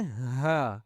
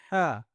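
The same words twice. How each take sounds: First: Deep-throat ہا, unconstricted; chest haa. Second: ہا as a constricted Arabic ḥaa; sharp pharyngeal ہا; upper-throat haa. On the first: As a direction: breathe ہا out from the bottom of the throat. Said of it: "ان کو سینے سے آواز نکالتے ہیں". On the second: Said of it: "گلے کے اوپر والی سے آواز". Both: Shown as a demonstration.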